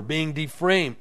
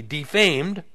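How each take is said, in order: First: "defamed" misspoken as "deframe"; slip of the tongue. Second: Said in the usual way. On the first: Real, not acted. Reader tripping over a verse, "defamed" slipping into "deframe". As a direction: stumble on "defamed", adding an r: "de-frame". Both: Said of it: "or excuse me".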